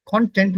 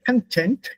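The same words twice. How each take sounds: First: Content with a full o in the first syllable; German pronunciation. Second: Content with a weak, reduced first vowel; English pronunciation. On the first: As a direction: say content the German way, kon-TENT. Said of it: "content would be German". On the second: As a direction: say content the English way, kuhn-TENT. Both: Shown as a demonstration.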